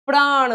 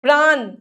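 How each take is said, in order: First: प्राण ending in curled-tongue ṇ; "praaṇa", retroflex nasal. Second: प्राण ending in plain n; tongue on teeth ending प्राण; dental-n error. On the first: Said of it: "ण आएगा". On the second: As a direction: say प्राण wrongly as "praan". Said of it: "न और ण की अशुद्धियां". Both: Shown as a demonstration.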